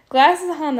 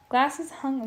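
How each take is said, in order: First: Higher, louder restart. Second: Said in the usual way. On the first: Shown as a demonstration. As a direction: restart with more energy.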